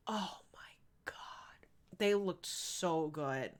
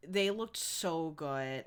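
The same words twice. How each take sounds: First: Swooning whisper. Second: Said in the usual way. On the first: Real, not acted. Streamer swooning to chat over seventies men, whispered. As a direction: whisper it like a secret crush.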